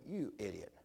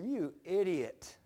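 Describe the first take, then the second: First: Lower, softer self-reproach; hushed "you idiot" to yourself; muttered self-scolding. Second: Slow, drawn-out scold; slowly chiding himself; self-scolding. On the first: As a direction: scold yourself under your breath. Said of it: "get mad at myself and go". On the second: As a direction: stretch out the insult to yourself. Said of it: "I go, I said". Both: Retold or imitated.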